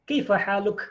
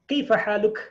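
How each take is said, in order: The two takes are said the same way.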